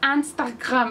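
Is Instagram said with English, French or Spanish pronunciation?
French. It is said with French pronunciation. "en francés... pronuncian Instagram como Instagram"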